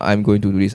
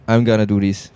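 First: Each word is said fully and separately. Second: The words are run together and reduced. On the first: "It's not" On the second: "they join a lot of words together"

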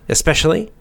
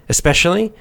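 Both takes have the same delivery.

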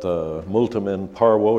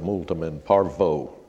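First: The consonant in parvo is a W sound. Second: The consonant in parvo is an English V sound. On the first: The speaker studied Latin. The speaker calls it right. "V in Latin was always pronounced like a W in English" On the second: The speaker never studied Latin. The speaker calls it wrong. "you don't say multum in parvo, because you'll know you didn't take Latin in school"

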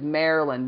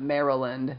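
First: The name is said in a clipped, casual form. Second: The name is said in its full form. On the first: "I just said Maryland" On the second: "not Maryland, like the actual name of the state"

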